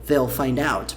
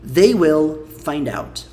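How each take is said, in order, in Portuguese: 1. 'They will' é contraído em uma sílaba. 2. 'They will' é dito como duas palavras completas.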